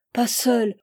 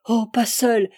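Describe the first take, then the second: First: "Pas seule" begged, a little louder; first plea of "Pas seule", stress on pas; child pleading not to be left alone; frightened pleading. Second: "oh, pas seule" cried out louder, pas stressed; the plea rises toward a cry; child begging more urgently not to be left alone; more desperate pleading. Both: A narrator's reading. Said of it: "Suppliante ... elle cria vers son père".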